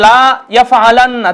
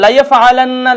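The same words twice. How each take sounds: First: "লা" held long, apart from "ইয়াফআলান্না"; drawn-out LA. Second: "লা" short and quick, run straight into "ইয়াফআলান্না". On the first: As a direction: stretch "লা" into a long vowel before "ইয়াফআলান্না". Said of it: "তাহলে কিন্তু উচ্চারণ ভুল". ("লা" টেনে দীর্ঘ করে, আলাদা শব্দের মতো) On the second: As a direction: clip the vowel of "লা" and join it to "ইয়াফআলান্না". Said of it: "এখানে উচ্চারণ করতে হবে". ("লা" দ্রুত, না টেনে "ইয়াফআলান্না"-র সাথে মিলিয়ে) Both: Shown as a demonstration.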